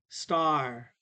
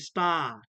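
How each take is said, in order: First: The word ends with a clear R sound. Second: The word ends on the vowel, with no R. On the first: "American English makes the R sound" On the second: "British and Australia say sta"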